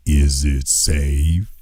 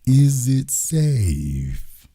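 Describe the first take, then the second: First: Much lower, slow, menacing "Is it safe?"; Marathon Man quote. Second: Very slow, eerie echo of "Is it safe?"; Marathon Man quote. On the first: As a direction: drag it out low like the dentist villain. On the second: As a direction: stretch each word, haunting. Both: Retold or imitated. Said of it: "Dustin Hoffman in The Marathon Man".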